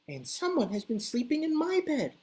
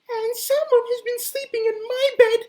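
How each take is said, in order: First: It is said in a medium, middle-pitched voice. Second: It is said in a tiny, high, piping voice.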